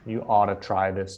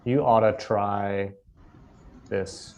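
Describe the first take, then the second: First: 'Ought to' is said as two clear words. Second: 'Ought to' is squished into one short word. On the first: "it is ought to" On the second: "we'll say oughta"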